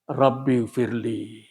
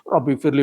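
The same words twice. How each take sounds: First: It is said slowly, with a pause after it. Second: It is rushed into the next words in one breath. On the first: The heart is sincerely asking. The speaker calls it right. "satu nafas satu kata" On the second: The prayer is not being reflected on. The speaker calls it wrong. "jangan satu nafas semua kalimat dibaca"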